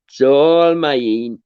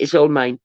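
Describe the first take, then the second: First: Slow, stretched "It's all mine"; drawn out slowly. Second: Said in the usual way. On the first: Shown as a demonstration. Host gloating to viewers, stretched slow and a touch louder. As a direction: savour every word, very slow. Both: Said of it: "I sound terrible".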